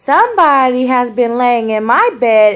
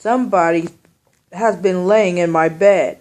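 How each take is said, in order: First: It is said in a small, high voice. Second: It is said in a big, deep voice. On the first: "in his little wee voice" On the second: "in his great big voice"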